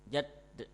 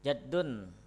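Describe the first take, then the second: First: The word ends on a bare final consonant. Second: The word ends with an added -un sound. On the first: The speaker stops at this word. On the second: The word is read in full, without stopping.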